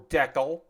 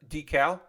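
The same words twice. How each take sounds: First: It is said in a Canadian way. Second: It is said in a non-Canadian way.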